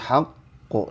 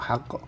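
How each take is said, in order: First: The q sound is doubled, held, and thick. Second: The q sound is short, not doubled. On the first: The speaker calls it right. "tapi haqqo, dan tebal ya" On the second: The speaker calls it wrong. "jangan langsung haqqo"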